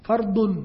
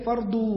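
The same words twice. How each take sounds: First: "ฟัรดุน" with short u closing on n; Arabic nunation. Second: "ฟัรดู" with open long u, no n; local long ending. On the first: Teacher showing form without al, "ฟัรดุน" ending in -dun. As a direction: end "ฟัรดุน" firmly on the n. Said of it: "ถ้าไม่มีอัลนี่นะ ก็ต้องฟัรดุน". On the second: Teacher quoting what people call it, "ฟัรดู" ending in long u. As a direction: stretch the final oo of "ฟัรดู". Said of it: "เขาก็เลยเรียกฟัรดู". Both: Shown as a demonstration.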